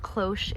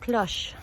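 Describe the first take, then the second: First: The word is said with an English pronunciation. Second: The word is said with a French pronunciation. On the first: The speaker calls it wrong. "it's not cloche" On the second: The speaker calls it right. "That's how we pronounce it"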